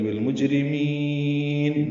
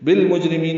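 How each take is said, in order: First: بالمجرمین chanted higher, "meen" held very long; lengthened meem syllable. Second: Said in the usual way. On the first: Shown as a demonstration. Teacher showing the lengthened meem, بالمجرمین with a long sung ending. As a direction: slowly draw out the final "mee" of بالمجرمین. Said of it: "میم کو لمبا کریں گے".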